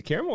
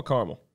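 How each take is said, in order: First: "caramel" said as CARE-mul; three-letter first syllable CARE. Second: "caramel" said as CAR-mul; CAR-mul pronunciation. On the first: Co-host asks which pronunciation, "caramel" as CARE-mul. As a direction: start "caramel" with the vowel of care. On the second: Co-host offers other pronunciation, "caramel" as CAR-mul. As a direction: start "caramel" with the vowel of car. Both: Shown as a demonstration. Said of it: "Is it caramel or caramel?".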